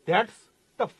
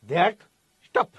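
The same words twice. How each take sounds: First: ધેટ્સ ending on S, pause, ટફ; that's tough. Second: ધેટ, pause, સ્ટફ starting on S; that stuff. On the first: Teacher contrasting sound-alike phrases, split ધેટ્સ / ટફ. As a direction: break after the S: ધેટ્સ / ટફ. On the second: Teacher contrasting sound-alike phrases, split ધેટ / સ્ટફ. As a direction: break before the S: ધેટ / સ્ટફ. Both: Shown as a demonstration. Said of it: "બોલવામાં તમને હરખું લાગે".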